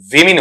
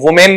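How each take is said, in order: First: The first syllable sounds like 'wi'. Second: The first syllable sounds like 'woo'. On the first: The speaker calls it right. "बल्कि विमिन हो रहा है" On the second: The speaker calls it wrong. "ये वुमेन नहीं"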